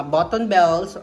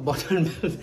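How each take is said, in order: First: Said in the usual way. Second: Laughing at herself. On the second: Real, not acted. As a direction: repeat it through a laugh. Laughs at own slip.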